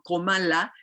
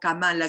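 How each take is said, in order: First: The first vowel sounds like 'o'. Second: The first vowel sounds like 'a'. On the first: The speaker calls it right. "su nombre debe de pronunciarse como Komala" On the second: The speaker calls it wrong. "no Kamala"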